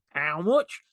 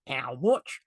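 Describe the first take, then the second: First: Leeds accent. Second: Flat Yorkshire "How much?" with a rising end; a blunt Leeds buyer asking the price; Leeds accent. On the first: Speaker redoes his local accent for Rob, in a Leeds accent. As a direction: repeat the blunt Leeds price question. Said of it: "I'll do it again". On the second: A client in a meeting balking at the price, in a Leeds accent. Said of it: "Did you like that accent". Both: Shown as a demonstration.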